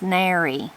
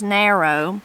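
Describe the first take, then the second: First: The word ends with an 'ee' sound. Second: The word ends with an 'oh' sound. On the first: "you'll most often hear it said as nary" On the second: "the word is narrow"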